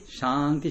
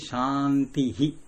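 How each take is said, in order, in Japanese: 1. 単語は息のエコーなしで終わる。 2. 単語は息の'hi'エコーが加わって終わる。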